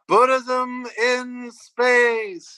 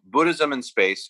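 First: It is said in a put-on puppet-like voice. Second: It is said in the speaker's ordinary voice. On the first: The speaker calls it right. "You were just talking about Frank Oz and the Muppets" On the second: The speaker calls it wrong. "you need to say it properly"

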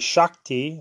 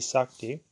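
First: The word begins with an 'sh' sound. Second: The word begins with an 's' sound. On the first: "Some say Shakti" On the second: "others say Sakti"

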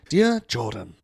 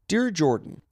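First: It is read in a put-on English accent. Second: It is read in the speaker's normal accent.

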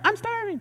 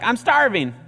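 First: It is said in a whiny girl's voice. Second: It is said in a whiny boy's voice.

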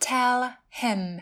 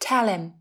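First: The h in him is pronounced. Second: The h is dropped and l links to him.

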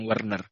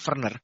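First: The name begins with a W sound. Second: The name begins with a V sound. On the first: "bukan Werner" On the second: "dipanggilnya namanya Werner"

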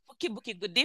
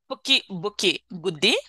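First: The phrase is said at a fast pace. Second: The phrase is said at a normal pace.

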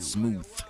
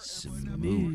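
First: The word ends with a th sound. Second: The word ends with a v sound. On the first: The person is only trying to seem smooth. The speaker calls it wrong. "Not smooth. S-M-O-O-T-H" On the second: The smoothness is natural and effortless. The speaker calls it right. "Smooth with a double O. S-M-O-O-V-E"

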